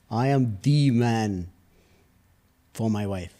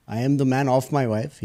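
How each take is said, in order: First: Slow, weighty stress on "the". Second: "am" stressed, "the" kept short. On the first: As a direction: draw out "the" before "man", slowly. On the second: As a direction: concede it, leaning on "am" and passing over "the". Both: Real, not acted. Contrasts two senses of "the man.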